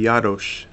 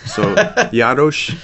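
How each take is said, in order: First: Jaroš, rolled r and sh at the end as in Czech; Czech pronunciation. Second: Jaroš drawn out slowly, louder, laughing through it; Jaroš stretched with a laugh, sh at the end; slow Czech name. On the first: Missionary teaching the host his Czech surname, Czech pronunciation. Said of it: "in Czech". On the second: Rounding off the surname lesson with a laugh, slow Czech pronunciation. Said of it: "Nike symbol on the S". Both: Shown as a demonstration.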